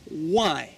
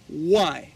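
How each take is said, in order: First: The word sounds like 'why'. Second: The same.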